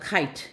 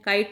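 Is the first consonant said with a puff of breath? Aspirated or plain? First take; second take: aspirated; plain. First: The first k has a strong breath puff. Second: The first k is plain, without a breath puff. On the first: The speaker calls it right. "ह लगाइए पीछे" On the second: The speaker calls it wrong. "काइट नहीं होता"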